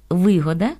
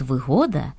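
First: Вигода with its stress on ви; opening ви stressed in вигода; stress on first syllable. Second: Вигода with its stress on го; stress on second syllable. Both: Shown as a demonstration. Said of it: "яке має два наголоси".

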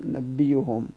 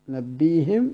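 First: نبيهم ending in "bihum", the ha with damma. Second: نبيهم ending in "bihim", the ha with kasra. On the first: Teacher showing students the damma reading of نبيهم. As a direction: say نبيهم as "nabbihum". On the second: Teacher showing students the kasra reading of نبيهم. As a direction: say نبيهم as "nabbihim". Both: Shown as a demonstration. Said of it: "بالكسر والضم".

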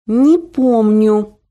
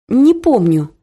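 First: Slow, clenched "Не помню", each syllable squeezed out; through the teeth. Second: Firm, clearly spoken "Не помню"; every word crisp and strict; clear and stern. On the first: Daughter losing patience with mother's stories, spat through teeth. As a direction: grind it out in irritation. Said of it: "процедила я". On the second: Daughter curtly shutting down her mother's gossip, strict. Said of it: "внятно и очень строго сказала я". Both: A narrator's reading.

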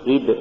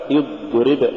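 First: يضرب with air leaking through the ض; faulty dad. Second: Said in the usual way. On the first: Shown as a demonstration. Teacher showing a recitation error, breath-leaking dad in يضرب. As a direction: loosen ض in يضرب so breath runs out. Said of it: "تقرأ لحنا". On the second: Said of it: "والصواب".

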